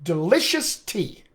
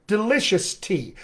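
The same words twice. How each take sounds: First: Delicious tea, slow, with the unstressed shus squeezed in the middle; stress rhythm demo. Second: Delicious tea, stressed LI and TEA evenly spaced. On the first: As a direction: say delicious tea slowly with two stress beats. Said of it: "Those are my two stress syllables". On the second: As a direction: keep the beat in delicious tea. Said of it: "the distance between those stress syllables". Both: Shown as a demonstration.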